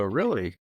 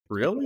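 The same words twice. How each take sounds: First: Said in the usual way. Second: High-pitched mock-surprised "Really?"; sarcastic. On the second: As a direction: feign disbelief on a rising question. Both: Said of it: "being, like, sarcastic".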